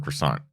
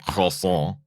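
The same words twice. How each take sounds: First: It is said with a plain American English pronunciation. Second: It is said with an exaggerated French pronunciation.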